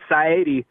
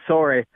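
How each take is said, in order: First: The first vowel sounds like 'sigh'. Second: The first vowel sounds like 'saw'. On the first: The speaker calls it right. "It's Saidi" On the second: The speaker calls it wrong. "not sorry"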